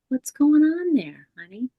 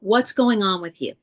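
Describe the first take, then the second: First: The tone sounds warm and curious. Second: The tone sounds judgmental and critical.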